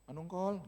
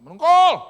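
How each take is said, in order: First: The name is called softly and gently. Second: The name is called loudly and high-pitched.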